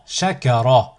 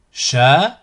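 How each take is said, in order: First: Syllables joined as one word. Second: Split into syllables. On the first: Teacher models a word for learners to repeat, joined in one go. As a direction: run the syllables together without pauses. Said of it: "ensuite le mot". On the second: Teacher models a word for learners to repeat, split into syllables. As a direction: cut the word up, pausing between syllables. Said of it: "décomposer le mot". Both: Shown as a demonstration.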